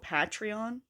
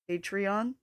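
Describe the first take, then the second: First: The first syllable rhymes with 'pat'. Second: The first syllable rhymes with 'hate'. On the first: "Like Pat instead of hate" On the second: "I like when people pronounce it Patreon"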